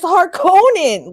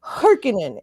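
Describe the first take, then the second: First: Harkonnen as har-KOH-nen, long high middle syllable; insisted pronunciation. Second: Harkonnen as HAR-kih-nen, weak middle syllable; rejected pronunciation. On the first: Podcaster correcting everybody, Harkonnen as an emphatic, slow har-KOH-nen. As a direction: draw out and stress the KOH in Harkonnen. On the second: Podcaster showing what it's not, Harkonnen as HAR-kih-nen. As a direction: stress the first syllable of Harkonnen and reduce the second. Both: Shown as a demonstration. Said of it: "It's not Harkonnen".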